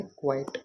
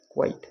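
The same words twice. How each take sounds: First: क्वाइट said as English "quiet", in two syllables, qui-et. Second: क्वाइट said as English "quite", with a clear final t. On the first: Teacher contrasting क्वाइट meaning silent. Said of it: "एक होता है क्वाइट". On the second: Teacher contrasting क्वाइट meaning complete. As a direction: say क्वाइट like "quite" with a crisp ending. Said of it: "एक तो word होता है हमारा". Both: Shown as a demonstration.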